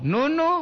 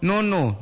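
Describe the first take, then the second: First: "nono" pitched very high, rising at the end; sharp rising intonation. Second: "nono" pitched a bit high, without the rise; intonation demo. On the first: Streamer shows the pet name's telling intonation, "nono" high and rising. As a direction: send "nono" shooting up like a pointed call. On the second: Streamer demonstrates how the pet name is intoned, "nono" without a rise. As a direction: say "nono" evenly, below a sharp call. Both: Shown as a demonstration. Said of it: "Tapi dengar intonasi".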